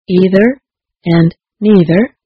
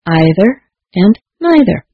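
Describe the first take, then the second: First: Both words are said with an 'ee' vowel. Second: Both words are said with an 'eye' vowel.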